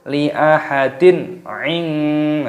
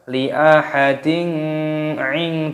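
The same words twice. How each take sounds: First: The n sound is clear without a nasal hum. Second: The n sound is held with a nasal hum. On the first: The speaker calls it right. "ini dibaca jelas, jangan dibaca berdengung" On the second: The speaker calls it wrong. "Jangan dibaca li ahadin ing, tidak boleh"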